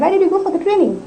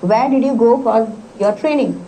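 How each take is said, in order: First: The sentence is spoken quickly. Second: The sentence is spoken slowly. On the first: "फिर वो fast निकलेगा" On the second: "तो आप धीरे बोलिए पहले"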